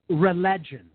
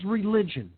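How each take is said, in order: First: The middle syllable sounds like 'leg'. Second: The middle syllable sounds like 'lij'. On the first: The word would come from relegare. The speaker calls it wrong. "I don't say religion. Do you?" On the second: The word comes from religare. The speaker calls it right. "the word is religion"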